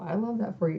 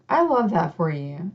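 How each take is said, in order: First: It is said sarcastically and dismissively. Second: It is said sincerely and warmly.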